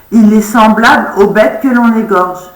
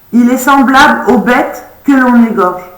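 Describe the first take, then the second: No difference in how they are said.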